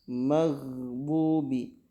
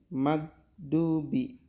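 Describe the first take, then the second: First: The gh sound flows continuously. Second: The gh sound is stopped abruptly. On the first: The speaker calls it right. "harus ngalir suaranya" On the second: The speaker calls it wrong. "Kalau dibaca mag itu berarti tidak ngalir"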